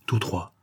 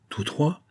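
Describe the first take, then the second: First: "Tous trois" soft, falling as a statement; confirming answer. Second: "Tous trois" higher, rising as a question; questioning echo. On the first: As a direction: confirm "Tous trois" quietly with a final drop. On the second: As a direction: ask "Tous trois" with the pitch lifting at the end. Surprised question, echoed as an answer. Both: A narrator's reading.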